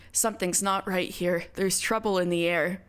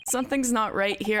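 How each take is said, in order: First: Lower, hushed serious tone for "Something's not right here.". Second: Trying to sound serious, laughter leaking through; a grin you can't hide; still giggly. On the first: Shown as a demonstration. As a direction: pull yourself together and say it gravely. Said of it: "I should start sounding serious". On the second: Real, not acted. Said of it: "I'm, like, still laughing".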